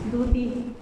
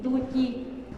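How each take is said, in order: First: The middle consonant is a plain t sound. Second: The middle consonant is a ch sound. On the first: This is how another Mixtec variety says it. "en el mixteco de Tolantongo es duti" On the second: This is how the speaker's own variety says it. "Duchi, frijol"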